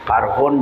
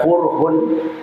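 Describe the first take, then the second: First: The first vowel is an open 'a' sound. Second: The first vowel is a rounded 'u' sound.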